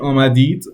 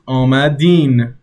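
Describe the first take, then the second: First: The word ends with a 'd' sound. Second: The word ends with an 'n' sound. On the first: This form is not used in casual speech. The speaker calls it wrong. "you wouldn't say آمدید" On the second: This is how it is said casually. The speaker calls it right. "You would also add a ne, and it becomes آمدین"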